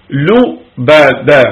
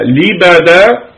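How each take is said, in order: First: لبدا said slowly with a rounded u on the lam, lu-ba-dan; لبدا with damma, lu-ba-dan, clearly drawn out; lubadan with damma. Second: لبدا said slowly with a clear i on the lam, li-ba-dan; لبدا drawn out slowly with kasra, li-ba-dan; libadan with kasra. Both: Shown as a demonstration. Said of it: "بكسر اللام وضمها".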